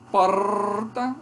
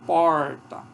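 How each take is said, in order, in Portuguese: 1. O r é uma vibrante com várias batidas. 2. O r é feito com a língua curvada para trás. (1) "vibrante múltipla" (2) "que é retroflex, como porta"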